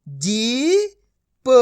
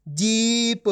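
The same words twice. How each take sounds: First: Put-on जीप read slowly, sounded out for children, x0.7; slow blending demo. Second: Said in the usual way. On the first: Shown as a demonstration. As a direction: draw out जीप slowly so the sound of each letter comes through. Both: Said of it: "अब आपको मेरा तरीका देखना है".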